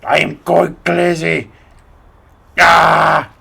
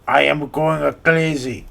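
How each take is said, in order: First: Slow, louder Russian take, shouted "Ah!" at end; Russian accent. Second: Put-on slow Russian accent that slips Italian; "I am going crazy" drawn out, accent drifting Italian; Italian-sounding try. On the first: Acted. YouTuber redoes the crazy line in Russian accent. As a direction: redo it properly Russian. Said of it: "more Italian than Russian". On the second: YouTuber's failed take sounding Italian, slow. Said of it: "I sound more Italian than Russian".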